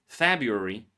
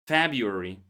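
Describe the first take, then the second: No difference in how they are said.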